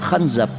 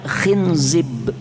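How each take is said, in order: First: Both vowels are pronounced as an a sound. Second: Both vowels are pronounced as an i sound. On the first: "dengan memfathahkan kha dan huruf zainya, berarti dibaca khanzab" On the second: "khinzib bikasril kha wa zai"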